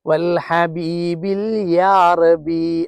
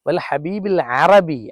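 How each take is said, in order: First: A 'ya' sound comes before 'arabi'. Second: No 'ya' sound comes before 'arabi'. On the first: The speaker calls it wrong. "അത് തെറ്റാണ്" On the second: The speaker calls it right. "അങ്ങനെയാണ്"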